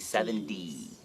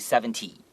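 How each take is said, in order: First: The middle consonant sounds soft, like a D. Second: The middle consonant is a crisp, clear T. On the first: The speaker calls it right. "we say seventy. ... we pronounce that T a little bit like a D" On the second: The speaker calls it wrong. "we don't say seventy"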